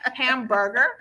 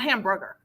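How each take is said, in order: First: Every syllable is clearly enunciated. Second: The syllables are run together casually. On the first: The speaker calls it right. "Hamburger, not hamburger" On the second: The speaker calls it wrong. "not hamburger"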